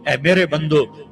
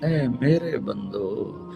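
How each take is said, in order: First: It is said in a plain, flat tone. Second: It is said in a loving, tender tone.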